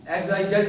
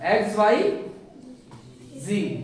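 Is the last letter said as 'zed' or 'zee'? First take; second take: zed; zee. First: The last letter is said as 'zed'. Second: The last letter is said as 'zee'. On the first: This is the older way, no longer in trend. "X Y जेड नहीं" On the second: This is the new, trendy way. "जेड को भी अब जी बोलते हैं"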